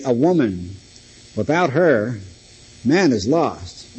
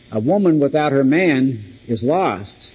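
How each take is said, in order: First: "A woman... without her... man is lost", each group set apart; pauses regroup the words. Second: "without her man" kept as one group, no break after "her"; one unbroken phrase. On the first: Preacher showing the opposite meaning, with pauses around "without her". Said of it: "by where you put the emphasis". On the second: Preacher showing one meaning of the sentence, phrased straight through. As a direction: run "woman without her man" together, then "is lost". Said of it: "you can put the emphasis upon different words". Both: Shown as a demonstration.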